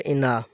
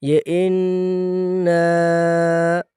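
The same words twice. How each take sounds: First: انا said clipped, with no nasal hold on the doubled n; انا rushed, no ghunna; انا spoken short and flat; wrong version. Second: انا with a long nasal ghunna on the doubled n, drawn out slowly; انا chanted slowly with ghunna; correct tajweed. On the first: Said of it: "یہ انا نہیں". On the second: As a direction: sing انا with a held nasal n and a stretched vowel. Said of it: "اس طرح پڑھا جائے گا". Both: Shown as a demonstration.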